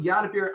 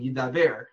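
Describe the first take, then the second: First: The word ends with a bir sound. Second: The word ends with a ber sound. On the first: The verb means to subdue. The speaker calls it right. "it's not Dibor" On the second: The verb means to speak. The speaker calls it wrong. "everyone always mispronounces it. They say like Yidaber"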